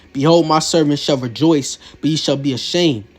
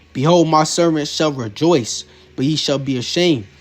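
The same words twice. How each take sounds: The two takes are said the same way.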